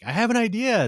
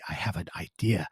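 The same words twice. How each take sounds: First: It is said as a loud shout. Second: It is said very quietly. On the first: "you can shout it like" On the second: "go very quietly"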